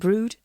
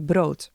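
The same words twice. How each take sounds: First: The word is pronounced with English vowel sounds. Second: The word is pronounced with Dutch vowel sounds. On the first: "So maybe you call it brood" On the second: "if I pronounce this the Dutch way"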